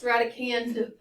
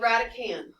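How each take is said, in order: First: The final D sound is pronounced. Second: The final D sound is silent. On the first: The speaker calls it wrong. "It is not pronounced radicand. That's not how you say it" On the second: The speaker calls it right. "The D is silent. It's called radicand"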